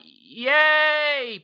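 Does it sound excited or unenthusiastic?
excited. It sounds excited and enthusiastic.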